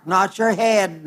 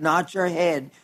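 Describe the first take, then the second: First: Said in the usual way. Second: Repeated much softer. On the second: Shown as a demonstration. Preacher echoing his point to the congregation, softly. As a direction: let "not your head" fall away softly.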